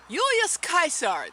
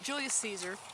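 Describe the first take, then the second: First: The name is pronounced the Latin way. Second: The name is pronounced the English way.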